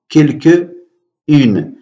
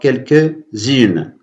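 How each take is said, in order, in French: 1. Les mots se prononcent sans son de liaison z. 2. Les mots se prononcent avec un son de liaison z. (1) "quelques apprenants peuvent lire ce mot quelques-unes" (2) "il y a ici ce qu'on appelle la liaison"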